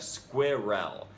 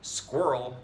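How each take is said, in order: First: All syllables are pronounced fully. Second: A syllable is cut or merged. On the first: "instead of" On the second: "we either cut out a syllable or condense two syllables"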